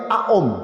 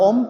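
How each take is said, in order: First: The word begins with an A sound. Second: The word begins directly with an O sound. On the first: The speaker calls it right. "tapi Aom" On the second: The speaker calls it wrong. "Sebenarnya bukan Om"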